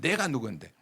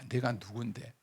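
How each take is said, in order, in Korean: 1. 큰 소리로 음높이를 올려서 말합니다. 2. 작은 목소리로 낮은 자세에서 부드럽게 말합니다. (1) "큰 소리 치면서, 예, 목소리 톤을 높이면서" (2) "겸손은 한마디로"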